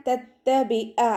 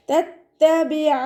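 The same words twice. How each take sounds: First: തത്തബിഅ ending in a glottal catch; hamza-like ain, wrong. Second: തത്തബിഅ ending in a clear throat ain. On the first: Teacher shows the wrong തത്തബിഅ. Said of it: "ഹംസയുടെ സൗണ്ടായി പോകരുത്". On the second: Teacher models തത്തബിഅ with a clear ain. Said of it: "സൗണ്ടിനെ വ്യക്തമാക്കി കൊടുക്കുക". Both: Shown as a demonstration.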